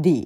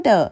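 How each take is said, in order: First: "the" with an ee vowel; "the" as dee. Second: "the" with a short neutral uh vowel; "the" as duh. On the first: Teacher contrasting two ways to say the article, "the" as dee. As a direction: say "the" to rhyme with "see". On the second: Teacher contrasting two ways to say the article, "the" as duh. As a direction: say "the" ending in a relaxed uh. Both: Shown as a demonstration. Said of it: "มีคนใช้เรียก the เป็น the".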